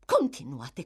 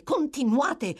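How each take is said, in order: First: Said in the usual way. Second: Much higher, louder insistent push; impatient matron pressing the dying woman; urgent urging. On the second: Acted. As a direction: press her harder to go on.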